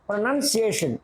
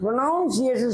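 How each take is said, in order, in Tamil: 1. இரண்டாவது எழுத்து 'nun' போல ஒலிக்கிறது. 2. இரண்டாவது எழுத்து 'noun' போல ஒலிக்கிறது. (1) "ப்ரொனன்சியேஷன்னா அதான் கரெக்டு" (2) "இது ப்ரொனவுன்சியேஷன் சொல்லக்கூடாது"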